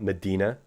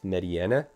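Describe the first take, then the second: First: The name has no extra vowel after 'di'. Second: The name has an extra vowel after 'di'. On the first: The speaker calls it wrong. "not Medina" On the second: The speaker calls it right. "it's Mediana"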